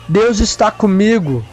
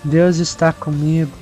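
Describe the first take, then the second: First: It is said firmly and confidently. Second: It is said weakly and hesitantly. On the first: The speaker says it with faith. The speaker calls it right. "Fala com fé" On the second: The speaker does not really believe it. The speaker calls it wrong. "Não fala assim, não"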